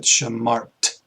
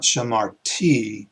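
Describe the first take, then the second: First: "shamart" ending on a bare t, said slowly; teacher slowly giving the correct "shamart"; right form. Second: "shamarti" with a final i, said slowly as the wrong version; teacher slowly sounding out the incorrect "shamarti"; wrong form. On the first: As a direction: end "shamart" on a clean t sound. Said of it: "but shamart". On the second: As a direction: stress the extra "ti" in "shamarti" to show the mistake. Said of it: "not shamarti". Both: Shown as a demonstration.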